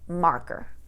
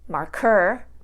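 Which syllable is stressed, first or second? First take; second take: first; second. First: The stress is on the first syllable. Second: The stress is on the second syllable. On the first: The speaker calls it right. "we say marker" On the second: The speaker calls it wrong. "We don't say marker"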